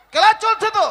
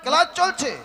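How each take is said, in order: First: Higher, emphatic repeat; insistent reminder. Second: Said in the usual way. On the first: Acted. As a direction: insist to the pupil that class is on. Teacher insists class is on.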